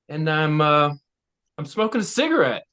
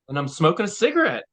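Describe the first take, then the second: First: It has a long pause before 'smoking'. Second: It is said without a pause.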